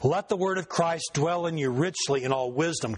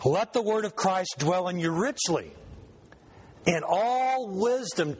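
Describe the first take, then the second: First: The pause comes after wisdom. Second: The pause comes after richly.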